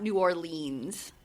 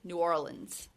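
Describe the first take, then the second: First: It is said the way outsiders say it. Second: It is said the way local people say it. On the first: The speaker calls it wrong. "not New Orleans" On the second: The speaker calls it right. "The locals say New Orleans"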